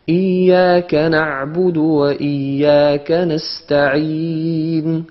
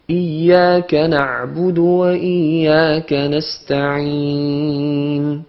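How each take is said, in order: First: The vowels carry no nasal sound, only mouth air. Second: The vowels carry a nasal sound through the nose. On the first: The speaker calls it right. "quand c'est bon" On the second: The speaker calls it wrong. "Ça c'est quand c'est faux"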